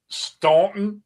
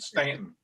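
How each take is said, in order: First: The name is said the outsider way. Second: The name is said the local way. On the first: This is how a newcomer says the name. The speaker calls it wrong. "Did you just call the valley, the town called Staunton?" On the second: This is how people living there say the name. The speaker calls it right. "these rednecks and hillbillies down there pronounce it Stanton"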